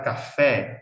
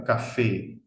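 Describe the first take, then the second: First: CAFÉ ending in open E, as in Portuguese. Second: CAFÉ ending in a closed E. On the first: Teacher showing what Spanish lacks, CAFÉ with open E. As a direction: widen the final vowel of CAFÉ to "eh". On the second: Teacher explaining Spanish vowels, CAFÉ with closed E. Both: Shown as a demonstration. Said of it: "porque no existe vocal abierta".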